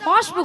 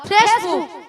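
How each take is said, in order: First: The first vowel is an 'o' sound. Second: The first vowel is an 'e' sound. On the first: The speaker calls it wrong. "ওটা ফসবুক নয়" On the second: The speaker calls it right. "বলো ফেসবুক"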